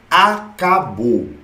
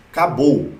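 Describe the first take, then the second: First: "Acabou" drawn out very slowly, closing the topic; slow final emphasis. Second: Said in the usual way. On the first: Shown as a demonstration. ("Acabou" arrastado, bem devagar, encerrando o assunto) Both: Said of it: "repete para encerrar a regra".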